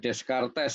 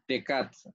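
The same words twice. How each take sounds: First: It is read as spelled, with every letter sounded. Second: It is read with the final letters left silent. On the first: The speaker calls it wrong. "jangan dibaca Descartes ya" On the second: The speaker calls it right. "Descartes ya bacanya"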